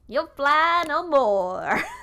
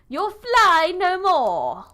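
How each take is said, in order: First: It is spoken in an American accent. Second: It is spoken in a non-American accent.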